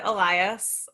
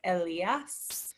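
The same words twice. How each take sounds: First: The name is pronounced the English way. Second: The name is pronounced the Spanish way. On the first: This is how the name's owner says it. "I pronounce it Elias" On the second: This is the technically correct form. "the technically correct way is to say like Elias, which maybe your daughter can do if she's learning Spanish"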